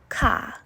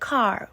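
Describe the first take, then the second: First: The final R sound is dropped. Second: The final R sound is clearly pronounced. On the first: This is how Canadians say it. "Canadians are more likely to say ka" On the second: This is how Americans say it. "Americans say car with a clear final R"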